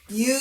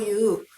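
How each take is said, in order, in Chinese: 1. 这个词以 'yu' 音开头。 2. 这个词是两个分开的元音，'i' 然后 'u'。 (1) "正解は言うなんです" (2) "いうという連続した母音はすごく発音しにくい"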